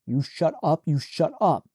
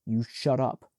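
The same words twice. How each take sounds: First: Louder, pressing each repeat; loud repeated order. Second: Said in the usual way. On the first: Acted. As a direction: lose your temper at her. Shaking his sister, losing control.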